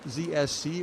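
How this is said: The letters are said with a British accent. "the Queen's English"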